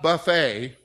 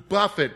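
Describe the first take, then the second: First: The word ends with an 'ay' sound. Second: The word ends with an 'it' sound. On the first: It names a self-service meal. The speaker calls it wrong. "It's not buffet, okay, where you go eat at the Pizza Hut" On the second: It means to strike repeatedly. The speaker calls it right. "but to buffet me"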